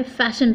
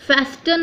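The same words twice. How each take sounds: First: "फैशन" with the T dropped; silent T. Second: "फेस्टन" with a clear T after the S; T wrongly sounded. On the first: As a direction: say "फैशन" with no T sound. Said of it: "फैशन पढ़ना है". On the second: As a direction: pronounce the T in "फेस्टन". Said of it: "फेस्टन नहीं पढ़ना है". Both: Shown as a demonstration.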